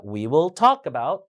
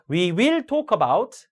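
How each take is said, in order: First: We will TALK about, will kept weak; slow phrase, talk stressed; stress on main verb. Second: We WILL talk about, auxiliary punched; wrongly stressed will. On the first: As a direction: skim will and hit talk. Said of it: "일반 동사에 강세를 줘야 되죠". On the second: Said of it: "이런 건 안 좋습니다". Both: Shown as a demonstration.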